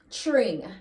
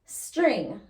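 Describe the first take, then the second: First: Tring without the S; S dropped. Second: Said in the usual way. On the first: Shown as a demonstration. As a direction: say Tring, patois style. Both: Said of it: "String becomes tring".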